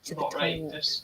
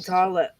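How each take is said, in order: First: The T sounds are clearly pronounced. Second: The T sounds are dropped. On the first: The speaker calls it right. "my parents always really rip her for it" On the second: The speaker calls it wrong. "she does drop her T's and H's"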